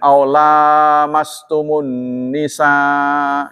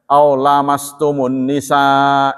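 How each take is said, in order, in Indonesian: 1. Vokal setelah 'l' pertama panjang. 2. Vokal setelah 'l' pertama pendek. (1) "dibacanya panjang" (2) "kalau dibaca pendek"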